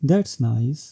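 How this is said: It sounds polite and calm. It is a polite response. "polite and calm"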